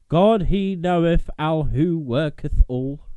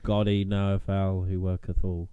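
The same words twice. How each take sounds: First: It is read in a dramatic, theatrical voice. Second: It is read in a plain, ordinary voice. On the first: It sounds more sinister and has more oomph. The speaker calls it right. "What was with the dramatic voice?" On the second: It lacks the same effect. The speaker calls it wrong. "I can't just be like"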